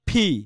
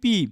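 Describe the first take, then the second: First: The P is said with a strong puff of air. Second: The P is said without a puff of air. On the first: The speaker calls it right. "সঠিক উচ্চারণ কি, ফি" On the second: The speaker calls it wrong. "এই যে আমরা বলি পি, এটা পি না"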